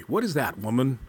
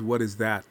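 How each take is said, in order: First: Mildly angry, insistent question; angry owl. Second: Said in the usual way. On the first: A narrator's reading. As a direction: demand an answer with a touch of anger. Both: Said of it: "He became angry".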